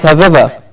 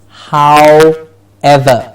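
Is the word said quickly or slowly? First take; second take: quickly; slowly. First: The word is said quickly and run together. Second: The word is said slowly and carefully. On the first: The speaker calls it wrong. "when you say it quickly, it becomes however. Yes, which is incorrect" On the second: The speaker calls it right. "There's only one correct version of this"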